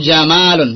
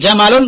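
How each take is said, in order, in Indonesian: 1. Vokalnya diucapkan panjang. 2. Vokalnya diucapkan pendek.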